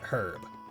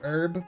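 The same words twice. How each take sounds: First: The word begins with an audible H sound. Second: The word begins without any H sound.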